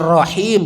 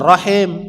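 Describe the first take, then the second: First: The last syllable has an i vowel. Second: The last syllable has an e vowel. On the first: The speaker calls it right. "Kasroh itu i" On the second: The speaker calls it wrong. "bukannya e"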